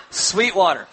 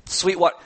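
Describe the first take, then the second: First: Chuckling as you repeat the answer; laughing answer. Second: Said in the usual way. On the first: Shown as a demonstration. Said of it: "I know you're in church". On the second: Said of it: "what comes out of that glass?".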